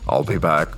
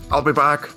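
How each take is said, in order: First: It is said in a deep, put-on movie-robot voice. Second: It is said in an ordinary speaking voice.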